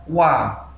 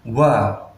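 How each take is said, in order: First: The syllable is voiced clearly without a breathy puff. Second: The syllable is said with a breathy puff of air. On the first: The speaker calls it right. "Yang benar wa; tidak boleh dengan hembusan angin atau hamas" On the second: The speaker calls it wrong. "bukan wa; dibaca dengan hamas atau angin"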